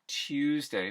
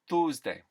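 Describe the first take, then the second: First: Said with General American gliding vowels. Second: Said with simple, non-gliding vowels.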